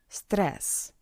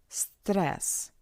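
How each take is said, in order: The two takes are said the same way.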